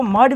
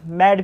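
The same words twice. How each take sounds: First: मड with a short "uh", like English "mud"; alternative short vowel. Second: मैड with an open "ae", like English "mad"; open "ae" reading. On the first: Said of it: "मैड को मड भी पढ़ते हैं". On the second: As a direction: say मैड with a wide front vowel. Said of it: "और मैड भी पढ़ते हैं". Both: Shown as a demonstration.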